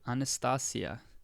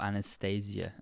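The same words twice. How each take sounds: First: The name is pronounced in a non-English way. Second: The name is pronounced the usual English way.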